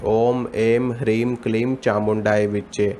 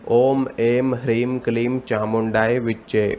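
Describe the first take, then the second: Both takes have the same delivery.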